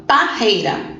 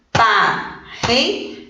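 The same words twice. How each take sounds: First: Said in the usual way. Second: Slow "Parreira" split as par-rei-ra, with gaps; syllable by syllable. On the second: Shown as a demonstration. Teacher separating syllables with the class, "Parreira" slowly in three pieces. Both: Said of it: "Vamos separar?".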